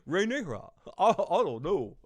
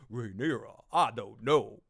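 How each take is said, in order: First: It is said in an ordinary, not deep, voice. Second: It is said in a put-on deep voice.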